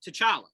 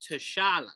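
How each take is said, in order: First: The name is said in a plain American way. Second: The name is said with a foreign accent. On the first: "for us, it's just T'Challa" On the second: "With the accent"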